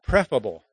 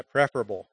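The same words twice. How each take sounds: First: "prefable" with the middle syllable dropped; wrong, shortened "prefable"; clipped wrong word. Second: "preferable" with every syllable sounded; full, careful "preferable"; all syllables. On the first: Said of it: "but again, not prefable". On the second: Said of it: "you need to pronounce all the syllables". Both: Shown as a demonstration.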